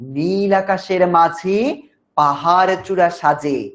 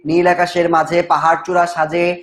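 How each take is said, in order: First: The line is recited expressively, like poetry. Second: The line is read plainly, without expression. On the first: The speaker calls it right. "সুন্দর করে করে বলা হয়" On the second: The speaker calls it wrong. "তাহলে কিন্তু লাভ নেই"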